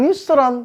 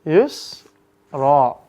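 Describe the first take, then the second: First: The word ends with an n sound. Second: The word ends with a long a vowel. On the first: The speaker calls it wrong. "Maka cara bacanya jangan yusran" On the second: The speaker calls it right. "maka yusrannya bacanya yusra"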